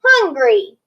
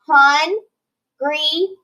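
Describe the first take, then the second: First: Said in the usual way. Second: Hun-gry, slow with a rising break; split into syllables. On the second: Shown as a demonstration. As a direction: stretch each syllable apart. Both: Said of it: "it's going to split in a multisyllabic word".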